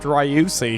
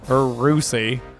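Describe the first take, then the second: First: The name begins with a 'ryoo' sound. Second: The name begins with a plain 'roo' sound. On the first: "I'm used to saying Ryu" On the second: "Or Rusi"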